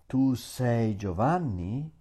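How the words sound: It is said with question intonation. It asks whether the listener is Giovanni. "I means are you Giovanni?"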